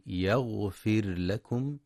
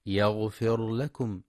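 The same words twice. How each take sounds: First: يغفر لكم with a thin, clearly pronounced R; slow careful demo of يغفر لكم; correct tajweed. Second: يغفر لكم with the ra made thick and heavy; mock error, heavy ra in يغفر; wrong heavy R. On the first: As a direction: say يغفر with a light ra, then لكم distinct. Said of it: "ينتبه القارئ لترقيق الراء وإظهارها". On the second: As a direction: demonstrate the mistake: fat ra in يغفر. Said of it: "فلا يقرأ ... بتفخيم الراء". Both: Shown as a demonstration.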